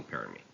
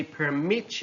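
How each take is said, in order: First: "permit" as PER-mit; stress on first syllable. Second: "permit" as per-MIT; stress on second syllable. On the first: Teacher reading a noun example, "permit" stressed on PER. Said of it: "stress on the first syllable". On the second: Teacher reading a verb example, "permit" stressed on MIT. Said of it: "stress falls on the second syllable". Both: Shown as a demonstration.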